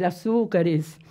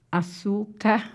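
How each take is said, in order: First: Said in the usual way. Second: Açúcares said softly in parts, a-çú-ca... res; slow, quiet açúcares, split as if writing it; broken into syllables. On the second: Shown as a demonstration. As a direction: softly dictate açúcares with a pause before res.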